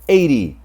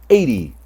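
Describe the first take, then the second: Both takes have the same delivery.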